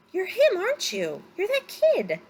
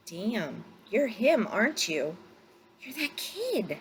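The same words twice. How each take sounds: First: Much higher and louder, thrilled; almost shouting with amazement; excited exclamation. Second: Dawning amazement, higher at the end; realizing who he's found; surprised recognition. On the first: Pilot repeats, now certain. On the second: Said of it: "He trailed off, cocked his head". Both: A narrator's reading.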